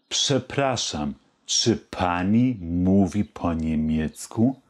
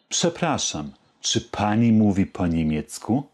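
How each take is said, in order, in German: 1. Die Frage wird etwas schneller gesprochen. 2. Die Frage wird am schnellsten gesprochen. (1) "Jetzt etwas schneller" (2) "Noch etwas schneller"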